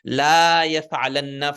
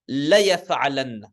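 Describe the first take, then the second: First: The first vowel 'la' is drawn out long. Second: The first vowel 'la' is kept short. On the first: The speaker calls it wrong. "you cannot say la yaf'alanna for this one" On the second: The speaker calls it right. "this is la yaf'alanna. One second only"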